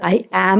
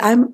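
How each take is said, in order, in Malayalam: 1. ഇത് രണ്ട് പൂർണ്ണ വാക്കുകളായിട്ടാണ് പറയുന്നത്. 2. ഇത് ചുരുങ്ങി ഒരു ചെറിയ അക്ഷരമായി മാറുന്നു. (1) "ഐ ആം എന്ന് തന്നെ പറയണം" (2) "കോൺട്രാക്റ്റഡ് ഐ എം എന്ന് പറയരുത്"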